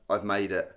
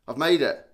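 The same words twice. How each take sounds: First: Said in the usual way. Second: Louder, punched triumphant repeat; proud mock-boast, louder. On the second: Real, not acted. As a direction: announce it like a victory.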